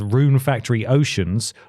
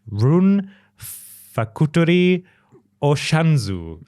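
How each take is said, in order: First: The title is said with English pronunciation. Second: The title is said with Japanese pronunciation.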